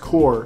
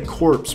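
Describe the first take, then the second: First: The word ends without p and s sounds. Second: The word ends with audible p and s sounds. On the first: The speaker calls it right. "I know that's pronounced core" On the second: The speaker calls it wrong. "I keep trying to say corpse"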